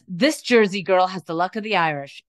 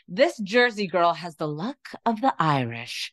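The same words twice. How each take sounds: First: It is read in the speaker's usual accent. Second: It is read in an Irish accent.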